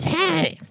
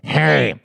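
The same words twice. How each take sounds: First: It is said in a normal voice. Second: It is said in a strip club DJ voice.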